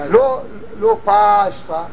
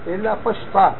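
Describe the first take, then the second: First: The stress is on the first syllable. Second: The stress is on the last syllable. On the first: The speaker calls it wrong. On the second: The speaker calls it right. "מלרע למטה"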